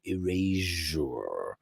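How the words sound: It is said with a European pronunciation. "Europeans say Erasure"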